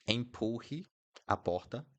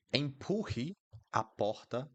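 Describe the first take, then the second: No difference in how they are said.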